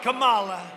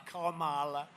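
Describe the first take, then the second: First: Kamala loud and drawn, stress on the second syllable, kuh-MAH-luh; Kamala mispronounced as kuh-MAH-luh on purpose; mocking pronunciation. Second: Kamala said KAH-ma-la, first syllable like comma; pronounced like comma. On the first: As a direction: belt out Kamala with a long middle MAH. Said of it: "You have to pronounce her name right". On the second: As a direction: stress the start of Kamala, KAH-ma-la. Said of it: "like a comma". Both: Shown as a demonstration.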